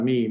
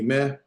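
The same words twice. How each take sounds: First: "me" with an ee sound; long ee vowel. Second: "meh" with an open eh; short eh vowel. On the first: Teacher showing the wrong vowel, "me" with ee. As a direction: say "me" like the English pronoun. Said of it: "uh, not me". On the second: Teacher showing the segol vowel, "meh" with eh. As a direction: end "meh" on eh, never ee. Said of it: "uh, eh. So meh". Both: Shown as a demonstration.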